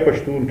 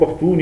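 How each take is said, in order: First: The middle consonant sounds like sh. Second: The middle consonant sounds like throaty kh. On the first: Other speakers say it this way, depending on their accent. "पख्तून या पश्तून कहते हैं, जो उनका लहजा है उसके मुताबिक" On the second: Some speakers say it this way, depending on their accent. "पख्तून या पश्तून कहते हैं, जो उनका लहजा है उसके मुताबिक"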